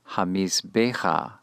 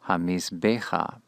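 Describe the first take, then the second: No difference in how they are said.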